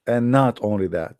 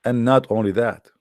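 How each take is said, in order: Both takes have the same delivery.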